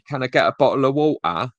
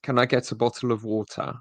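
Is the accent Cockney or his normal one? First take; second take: Cockney; normal. First: It is said in a Cockney accent. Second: It is said in his normal accent.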